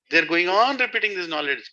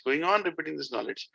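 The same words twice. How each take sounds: First: Raised, insistent preaching line; emphatic. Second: Quieter repeat that lets the phrase sink in; softer echo. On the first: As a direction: press "going on repeating" firmly. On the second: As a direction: echo the line back softly. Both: Shown as a demonstration.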